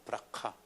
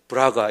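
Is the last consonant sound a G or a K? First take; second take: K; G. First: The last syllable starts with a K sound. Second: The last syllable starts with a G sound. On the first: The speaker calls it right. "정확한 발음은 브라카입니다" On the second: The speaker calls it wrong. "우리말로는 브라가 이렇게 돼 있죠"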